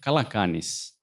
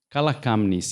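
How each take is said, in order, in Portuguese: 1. Nenhum som de m vem antes do n. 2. Um som de m vem antes do n. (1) "em grego moderno da Grécia seria" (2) "no Chipre ele é usado ainda hoje"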